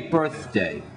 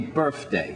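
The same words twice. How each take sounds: First: The middle sound is a clear th. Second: The middle sound is not a th. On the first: "they don't say birthday" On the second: "They say birthday"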